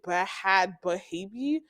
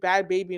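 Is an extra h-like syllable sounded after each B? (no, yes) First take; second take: yes; no. First: Each B is followed by an extra breathy syllable. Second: It sounds like plain bad baby, no extra syllables. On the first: The H in the spelling is pronounced. "there's like an H after the B" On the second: The H in the spelling is silent. "just is it Bad Baby and it's just spelled like that"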